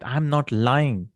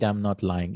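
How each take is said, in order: First: NOT drawn out and lifted; slow it down and lean on "not"; raised-voice emphasis. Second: Said in the usual way. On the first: Shown as a demonstration. Teacher showing emphasis by voice, stressing "not". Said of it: "if I raise my voice, that is emphasis". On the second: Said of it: "without raising your voice".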